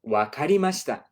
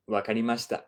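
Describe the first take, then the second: First: A touch of the teacher's voice, a bit higher and louder; playing the sensei answering the absent student; sensei's reply. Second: Said in the usual way. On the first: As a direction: lightly voice the sensei agreeing. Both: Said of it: "And the sensei says".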